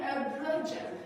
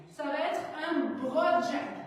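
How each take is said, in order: First: "broad jump" said with an English accent, English R. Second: Said in the usual way. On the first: Shown as a demonstration. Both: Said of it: "Avec l'accent anglais".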